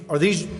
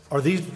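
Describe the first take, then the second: No difference in how they are said.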